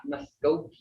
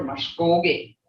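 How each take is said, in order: First: MUSKOGEE as mus-KO-gee, middle not held; casual "Muskogee" with a plain s and short middle; toneless mispronunciation. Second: MUSKOGEE as mush-KOHL-geh, long toned middle; "Muskogee" with sh and an -eh ending; elders' pronunciation. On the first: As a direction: say Muskogee the English way, without the tone. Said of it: "We're not Muskogee". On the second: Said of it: "That's how the elders talk". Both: Shown as a demonstration.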